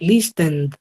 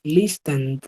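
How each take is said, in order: The two takes are said the same way.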